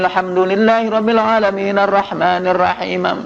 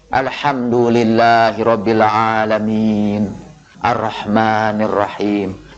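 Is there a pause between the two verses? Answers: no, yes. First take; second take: no; yes. First: The verses run together without a pause. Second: There is a pause between the verses. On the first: The reader rushes on without waiting for God's reply. The speaker calls it wrong. "kalau orang baca Al-Fatihah terus menerus" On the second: The reader leaves room for God's reply to each verse. The speaker calls it right. "bacalah nanti dalam sholat itu Al-Fatihah itu satu-satu"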